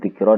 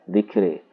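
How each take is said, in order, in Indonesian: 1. Vokal akhirnya adalah 'a' terbuka biasa. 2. Vokal akhirnya condong ke 'e' atau 'i'. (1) "Berarti dzikra dibaca dzikri" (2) "Abu Amrin bi imalati dzikra"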